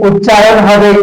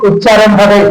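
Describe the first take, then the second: The two takes are said the same way.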